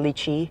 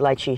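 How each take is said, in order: First: It is said the mainland US way. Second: It is said the Hawaii way.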